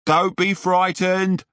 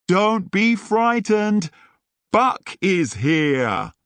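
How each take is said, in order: First: Higher, bold call to reassure; brave shout. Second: Higher, slow, bold group shout; shouted together. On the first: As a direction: shout it out, heroic and confident. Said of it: "Buck shouted". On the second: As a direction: declare it slowly, like a rallying cry. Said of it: "everyone shouted". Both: Acted.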